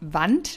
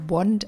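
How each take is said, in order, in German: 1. Das Wort wird wie ein deutsches Wort ausgesprochen. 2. Das Wort wird wie ein englisches Wort ausgesprochen. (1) "geschrieben wie Wand auf Deutsch" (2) "spricht man aber eigentlich Wand aus"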